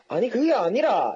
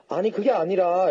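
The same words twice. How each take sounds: First: It is said heatedly in Gyeongsang dialect. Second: It is said calmly in standard Seoul Korean. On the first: This is how it comes out when excited. "이렇게 된다니까요?" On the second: This is how it is meant to come out. "이렇게 해야 되는데"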